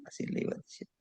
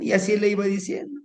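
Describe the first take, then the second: First: Fading whisper. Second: Said in the usual way. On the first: A narrator's reading. Narrator fading out the repeated line as the healing goes on, whispered. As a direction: let the repeat fade into a breathy whisper. Storyteller trailing off repeated phrase.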